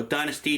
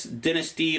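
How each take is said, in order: First: Dynasty said DIE-nuh-stee; long-i pronunciation. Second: Dynasty said DIN-uh-stee; short-i pronunciation. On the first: Record collector offering the other pronunciation, Dynasty with long i. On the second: Record collector naming a Kiss album, Dynasty with short i. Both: Shown as a demonstration. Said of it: "depending on how you say it".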